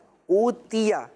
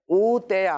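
First: The vowel after t is a clear ee sound. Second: The vowel after t is an ay sound. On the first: The speaker calls it right. "یہ ٹھیک ہے" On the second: The speaker calls it wrong. "او تیا غلط"

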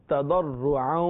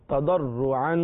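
The two takes are said the same way.

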